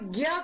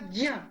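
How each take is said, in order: First: It is said the usual everyday way. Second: It is said as j joined with ñ. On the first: The speaker calls it wrong. "हम सामान्यतः इसका उच्चारण ज्ञ करते हैं" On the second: The speaker calls it right. "वास्तव में ... उच्चारण होगा ज्ञ। ज और ञ"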